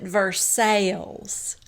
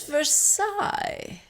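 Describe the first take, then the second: First: Versailles is said the local Kentucky way. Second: Versailles is said the standard, non-Kentucky way. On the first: This is how locals in Kentucky say the name. "in Kentucky, we pronounce it Versailles" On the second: The usual pronunciation is insisted on. "But it's Versailles"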